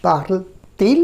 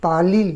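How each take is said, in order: First: Parle-t-il with a clear T before "il"; inserted T sound. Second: পালিল with the two words merged, no T between; run-together pronunciation. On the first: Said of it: "টি যদি গুঁজে দিই মাঝখানে". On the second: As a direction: slur parle and il into one word, "পালিল". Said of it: "এখানে একটু উচ্চারণের অসুবিধা হচ্ছে". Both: Shown as a demonstration.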